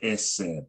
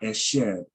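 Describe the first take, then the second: First: The middle consonant is an s sound. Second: The middle consonant is an sh sound. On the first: The speaker calls it right. "that dot over here to the left makes it a s sound. So we got eseb" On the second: The speaker calls it wrong. "not esheb"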